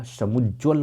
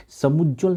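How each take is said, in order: First: समुज्ज्वल said with the व sounded, sa-muj-jwal; समुज्ज्वल as the correct version, व clear; correct form. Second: समुज्ज्वल said without the व, higher and louder; wrong form. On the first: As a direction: say समुज्ज्वल carefully with jwa. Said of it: "समुज्ज्वल होता है". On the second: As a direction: stress समुज्ज्वल as the mistake, sa-mu-jal. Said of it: "समुज्ज्वल नहीं होता". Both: Shown as a demonstration.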